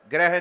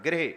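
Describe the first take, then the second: First: ਗ੍ਰਹਿ said as "greh", the vowel opened wrongly; ਗ੍ਰਹਿ misread as "greh" without the sihari; wrong reading. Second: ਗ੍ਰਹਿ said "grih", with the short i of the sihari; ਗ੍ਰਹਿ pronounced "grih", clipped and falling; correct reading. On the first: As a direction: show the mistaken "greh" for ਗ੍ਰਹਿ. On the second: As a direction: model ਗ੍ਰਹਿ properly, short i after the g. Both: Shown as a demonstration. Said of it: "ਗੱਗੇ ਨੂੰ ਸਿਹਾਰੀ ਹੈ".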